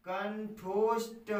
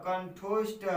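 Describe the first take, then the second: First: कंठोष्ठ stretched slowly, syllable by syllable; drawn-out syllables. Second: Said in the usual way. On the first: Shown as a demonstration. Teacher spells out कंठोष्ठ for students, slowly drawn out. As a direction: drag out कंठोष्ठ slowly for the class. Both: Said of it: "तो क्या हो जाएगा?".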